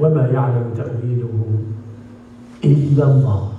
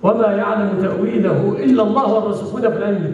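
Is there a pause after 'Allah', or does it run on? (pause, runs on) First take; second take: pause; runs on. First: There is a clear stop after the word Allah. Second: The words run on after Allah without stopping. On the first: Only God knows the true interpretation. The speaker calls it right. "وتسكت. ثم تقول: والراسخون في العلم يقولون" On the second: God and the firmly grounded scholars both know the interpretation. The speaker calls it wrong. "لا تقول"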